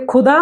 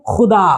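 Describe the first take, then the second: First: "खुदा" with an aspirated k, khudaa; k-h without nukta. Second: "खुदा" with a throaty scraped x, xudaa; nukta kh sound. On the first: Teacher showing the word for dug, "खुदा" with aspirated k. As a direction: start "खुदा" on a puffed k stop. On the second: Teacher showing the word for God, "खुदा" with throaty x. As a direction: start "खुदा" on a rasped fricative, not k. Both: Shown as a demonstration. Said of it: "नीचे नुक्ता लगे तो".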